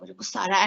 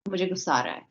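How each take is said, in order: First: It is said with an angry expression. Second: It is said in a plain, neutral way.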